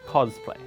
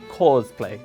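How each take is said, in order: First: The first vowel is a plain short 'ah' sound. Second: The first vowel is stretched toward an 'or' sound. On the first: The speaker calls it right. "rather than" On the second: The speaker calls it wrong. "There's a tendency to overreach it to or"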